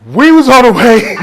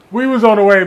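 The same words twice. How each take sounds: First: Laughing through the words; higher and louder, breaking into a laugh; giggling as he says it. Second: Said in the usual way. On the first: Real, not acted.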